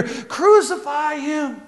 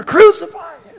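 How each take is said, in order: First: Much higher, soft and slow; a sly voice urging from the back, drawn out; hidden voice in crowd. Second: Much higher, louder call; crowd calling out. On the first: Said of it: "from behind them they hear". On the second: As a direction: shout it from somewhere in the crowd. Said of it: "coming from somewhere". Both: Retold or imitated.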